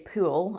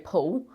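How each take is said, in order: First: It is said with an Australian accent. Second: It is said with a New Zealand accent.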